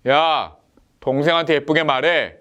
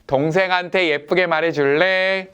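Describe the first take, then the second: First: A sharp "야" then a falling command on "말해."; a mild mock scolding, "동생한테" pressed; stern order. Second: Gentle request stressing "동생한테"; kindly asking. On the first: Father sternly orders the older son to be nice. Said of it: "이 번". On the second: Retold or imitated. Father gently asks the older son to speak nicely. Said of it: "일 번".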